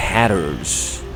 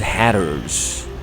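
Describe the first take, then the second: First: It sounds like 'hatters', with a short vowel. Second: It sounds like 'hatters', with a short vowel.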